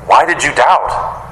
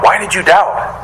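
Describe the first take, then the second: First: Slow, drawn-out questioning reproach; gentle admonishment. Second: Higher-pitched questioning reproach; mild admonishment. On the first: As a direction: stretch the question out as a mild reproof. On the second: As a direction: lift the repeated question in gentle reproof. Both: Acted. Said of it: "gives him a little admonishment".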